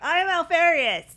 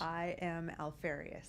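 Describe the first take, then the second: First: It is said louder, projected to the back. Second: It is said at normal, quieter volume.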